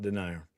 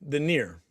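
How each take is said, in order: First: "denier" said dih-NY-er, like "deny" plus "er"; "denier" with a stressed NY in the middle; mistaken pronunciation. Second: "Denier" said den-EER, ending like "near"; "Denier" with stressed EER at the end; corrected pronunciation. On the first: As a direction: say "denier" to rhyme with "supplier". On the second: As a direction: say "Denier" to rhyme with "veneer". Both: Shown as a demonstration. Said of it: "I guess it's not denier".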